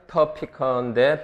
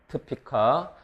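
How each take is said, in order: First: The first-syllable vowel is pronounced fully. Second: The first-syllable vowel is dropped. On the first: This is careful, slow speech. "천천히 말할 때는" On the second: This is fast, connected speech. "빨리 발음하면 슈아 탈락해서"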